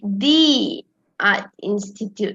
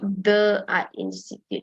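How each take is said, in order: First: The word 'the' is pronounced 'thee'. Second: The word 'the' is pronounced 'thuh'. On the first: The speaker calls it right. "because it's A, A E I O U" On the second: The speaker calls it wrong. "not the art institute"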